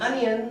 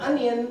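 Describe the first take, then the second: The two takes are said the same way.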